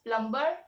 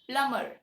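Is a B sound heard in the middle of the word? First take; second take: yes; no. First: The B sound is pronounced in the middle. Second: The B sound is silent in the middle. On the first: The speaker calls it wrong. "You tend to pronounce uh, the B" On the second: The speaker calls it right. "that B is silent. The correct pronunciation of this word should be plumber"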